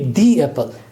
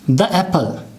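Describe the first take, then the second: First: 'The' is said with a long 'ee' vowel. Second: 'The' is said with a short weak vowel. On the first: The speaker calls it right. "we would use the strong form of this word" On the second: The speaker calls it wrong. "this is incorrect"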